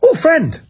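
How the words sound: It is said in an excited tone.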